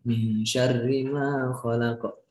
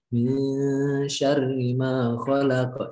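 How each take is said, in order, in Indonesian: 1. Tidak ada bunyi dalam frasa yang ditahan panjang. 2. Satu bunyi dalam frasa ditahan panjang. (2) "sedikit ditahan agak lama"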